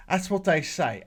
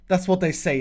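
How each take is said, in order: First: Lightly imitated British accent; put-on British accent. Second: Said in the usual way. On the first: Shown as a demonstration. Host showing viewers how the English say it, in a put-on British accent. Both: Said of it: "I gotta put on my British accent".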